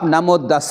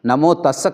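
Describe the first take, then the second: First: The second word begins with a d sound. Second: The second word begins with a t sound. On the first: The speaker calls it wrong. "नमो दस उच्चारण करता है तो आज के बाद उसे छोड़ देना" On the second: The speaker calls it right. "त लगा के नमो तस्स करके उच्चारण कर लेना"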